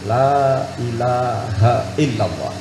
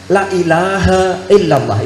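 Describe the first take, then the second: First: The vowel in 'illa' is held long. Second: The vowel in 'illa' is cut short. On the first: There is no god but God. The speaker calls it right. "tidak ada Tuhan selain Allah" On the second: The meaning is reversed. The speaker calls it wrong. "itu artinya terbalik ... Nah itu kalau elanya pendek"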